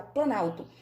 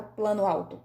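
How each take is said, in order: First: "planalto" said as one word, "plano" losing its final o; "planalto" said as one merged word; fused into one word. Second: "plano alto" said as two words, the vowels kept apart; "plano alto" as two full words, no merging; two separate words. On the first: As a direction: blend it into "planalto" with no break. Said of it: "eu falo planalto". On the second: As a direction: say "plano" then "alto" with a clear break. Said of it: "Eu não falo plano alto". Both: Shown as a demonstration.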